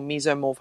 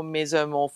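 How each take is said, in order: First: Mesomorph with a long first vowel, MEE-zoh-morf; alternative pronunciation. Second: Mesomorph with a short first vowel, MEZ-oh-morf; alternative pronunciation. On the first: Offering listeners another option, mesomorph said MEE-zoh-morf. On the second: Fitness chat about own body type, mesomorph said MEZ-oh-morf. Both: Shown as a demonstration. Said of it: "however you wanna pronounce it".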